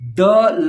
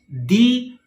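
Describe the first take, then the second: First: The vowel is a short 'uh' sound. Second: The vowel is a long 'ee' sound. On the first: "So when the is added with a word that starts with a consonant" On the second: "when you use the with a word that starts with a vowel, you pronounce it as the"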